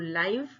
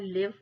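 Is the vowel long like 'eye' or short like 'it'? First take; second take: eye; it. First: The vowel is a long 'eye' sound. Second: The vowel is a short 'i' sound. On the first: Happening in real time. "जैसे कहते हैं ना लाइव match चल रहा है" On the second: To stay or reside. "लिव यानी रहना"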